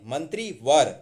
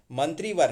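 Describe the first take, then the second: First: मंत्रीवर with short I after त्र; correct form मंत्रीवर. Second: मंत्रीवर with long EE after त्र; wrong form मंत्रीवर. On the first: Teacher says short vowel sign, correct form. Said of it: "मंत्री में छोटे की मात्रा". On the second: Teacher rejects the spelling, mistaken form. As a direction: say मंत्रीवर with a long middle vowel. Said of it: "मंत्रीवर नहीं". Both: Shown as a demonstration.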